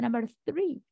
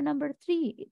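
First: 'Three' begins with a 'th' sound. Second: 'Three' begins with a plain 't' sound. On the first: It names the number. The speaker calls it right. "There is a number three" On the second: It sounds like the word for a plant. The speaker calls it wrong. "No, there is not a number three"

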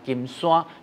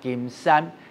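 First: 山 takes the colloquial Hokkien reading. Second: 山 takes the literary Hokkien reading. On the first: The speaker calls it wrong. "你就不能讲金山" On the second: The speaker calls it right. "你要讲金山"

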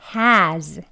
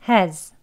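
First: Said with h and a full stressed vowel. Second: Said with h and a weak schwa vowel. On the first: "strong한 발음 먼저" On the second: "약하게 발음하는 경우"

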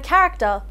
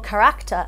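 First: The stress is on the first syllable. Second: The stress is on the second syllable.

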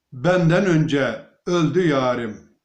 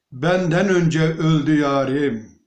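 No difference in how they are said.

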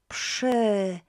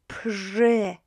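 First: The sound after p is a voiceless hiss. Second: The sound after p is a voiced buzz. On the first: The speaker calls it right. "PRZ will be always, always pronounced as PSH" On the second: The speaker calls it wrong. "don't try przy, right? This is not how we pronounce it"

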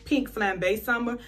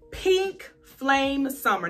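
First: The middle word has two syllables, like 'flam-bay'. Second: The middle word has one syllable, like 'flame'. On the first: "some people say Pink Flambe Summer" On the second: "I'm probably saying it wrong"

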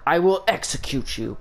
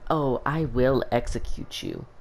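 First: It is said harshly, like Shao Kahn. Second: It is said sweetly and nicely.

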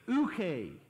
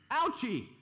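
First: It is said the original Greek way. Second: It is said in a hillbilly accent. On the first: "in the original Greek" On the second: "a hillbilly pronunciation of that would be ouchie"

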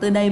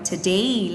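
First: The syllables are said flat and even. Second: The stressed syllable rises clearly in pitch. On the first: The speaker calls it wrong. "Không đọc today" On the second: The speaker calls it right. "mà đọc là today lên"

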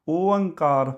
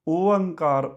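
The two takes are said the same way.

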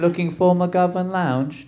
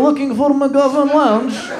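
First: It is spoken in a put-on British accent. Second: It is spoken in an imitated Russian accent. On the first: The speaker pretends to be from England. "I'm gonna use a British accent when I talk" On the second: Someone else, a genuine foreigner, said it. "This lady was legitimately Russian"

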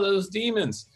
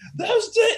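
First: The words are said calmly, with little energy. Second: The words are yelled, with lots of energy. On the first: The demons do not seem frightening. The speaker calls it wrong. "if I felt like energy was being lost" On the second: The demons are scary. The speaker calls it right. "he would start yelling and doing that stuff"

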